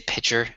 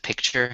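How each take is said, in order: First: The word is said without a k sound. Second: The word is said with a k sound. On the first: "people would say pitcher" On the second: "instead of picture"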